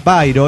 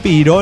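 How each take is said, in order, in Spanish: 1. La primera vocal suena como 'eye'. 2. La primera vocal suena como 'ee'. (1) "en realidad a lo mejor se pronuncia Pairo" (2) "Le digo Piro"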